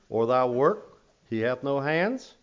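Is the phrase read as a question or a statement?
question. It is read with a questioning tune. The speaker calls it right.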